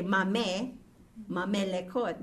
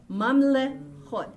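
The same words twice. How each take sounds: First: Mamelekot with an extra e sounded after the second m; wrong added vowel. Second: Mamlechot slowly, sounding the vowel after the l; vocal sheva pronounced. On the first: Teacher shows students what not to say, mamelekot with an extra vowel. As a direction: say "mame, mamelekot", wrongly voicing the silent sheva as e. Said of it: "We did not say". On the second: Teacher shows students the pronounced sheva in Mamlechot, slow and deliberate. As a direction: say "Mamlechot" as mam-le, then chot, slowly. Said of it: "I pronounce the l". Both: Shown as a demonstration.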